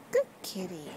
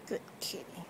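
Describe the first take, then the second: First: Said in the usual way. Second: Breathy whisper, much softer. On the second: Real, not acted. Self-styled cat whisperer whispering to the cat.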